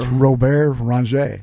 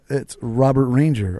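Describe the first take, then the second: First: The name is said the French Canadian way. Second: The name is said the American way.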